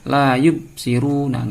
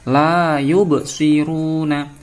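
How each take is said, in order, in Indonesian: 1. Huruf b ditahan tanpa mantul. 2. Huruf b dilepaskan dengan mantul. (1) "enggak boleh" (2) "harus dibaca mantul"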